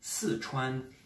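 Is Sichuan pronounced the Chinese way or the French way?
Chinese. It has Mandarin tones, falling then high level. "normalement quatrième ton ici et premier ton"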